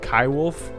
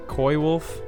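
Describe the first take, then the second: First: The first part rhymes with 'eye'. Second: The first part rhymes with 'boy'. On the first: "Is it Kai wolf?"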